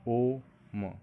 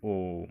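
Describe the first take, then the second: First: ओम with the ओ held long, three beats; drawn-out pluta vowel. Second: Said in the usual way. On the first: Shown as a demonstration. Teacher showing students a three-beat vowel, ओम long and held. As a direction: stretch the ओ of ओम out to three counts. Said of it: "इसमें तीन मात्रा का बल मिला". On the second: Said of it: "जैसे".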